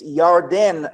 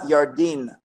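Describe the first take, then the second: First: The last syllable has an 'e' vowel. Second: The last syllable has an 'i' vowel. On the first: The speaker calls it right. "when you pronounce it, it's Yarden" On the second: The speaker calls it wrong. "not Yardin"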